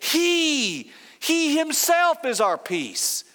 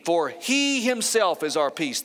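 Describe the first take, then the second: First: The word he is strongly stressed. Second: No word is especially stressed.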